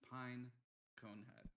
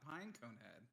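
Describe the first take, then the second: First: The name is split with a break after Pine. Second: The name runs together with no break after Pine. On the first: The speaker calls it right. "it's very specific that you split the pronunciation up" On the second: The speaker calls it wrong. "It's not Pine Conehead"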